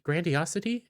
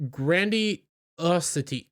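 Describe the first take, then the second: First: "grandiosity" softer with a rising question tune; questioning repeat. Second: "grandiosity" sounded out slowly, falling; drawn-out tentative word. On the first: Doubting the word "grandiosity" aloud, softly rising. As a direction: ask yourself whether "grandiosity" is real. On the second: Trying out the word "grandiosity" while reading, slow and unsure. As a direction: test the word "grandiosity" carefully. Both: Shown as a demonstration. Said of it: "Is that even a word?".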